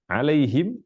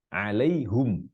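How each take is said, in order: First: The word ends in him with a bare m. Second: The word ends in hum with a u vowel. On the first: "kita baca alaihim bersukun mimnya" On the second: "Qiraat yang lain baca alaihum"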